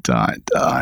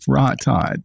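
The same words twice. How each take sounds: First: Dot dot breathed as a whisper. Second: Said in the usual way. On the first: Shown as a demonstration. Whispered end of list.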